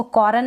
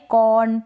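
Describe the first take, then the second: First: कॉर्न with a full rolled r, कॉरन; wrong reading with the r; wrong r sounded. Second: कॉर्न as kɔn, r dropped; right reading, no r; correct silent r. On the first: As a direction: sound every letter in कॉर्न. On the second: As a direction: let the r vanish in कॉर्न. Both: Shown as a demonstration. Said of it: "कॉर्न ना पढ़े".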